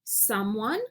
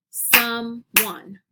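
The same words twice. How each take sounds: First: Said in the usual way. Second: SOME, ONE as two separate beats; clapped syllables. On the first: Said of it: "I'll say the word". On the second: Shown as a demonstration. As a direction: split "someone" with a gap, as if clapping it. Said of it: "clap out the word parts".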